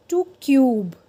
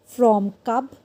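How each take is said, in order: First: "cube" with long yoo, louder, falling; long vowel. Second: "cub" with short uh, rising; short vowel. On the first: Teacher drills silent E word, long vowel in "cube". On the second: Teacher drills word before silent E, short vowel in "cub". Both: Shown as a demonstration. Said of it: "वो longer और louder हो जाता है".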